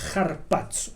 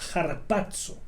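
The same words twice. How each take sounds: First: The word starts with a harsh throat sound. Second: The word starts directly with the vowel. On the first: The speaker calls it right. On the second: The speaker calls it wrong.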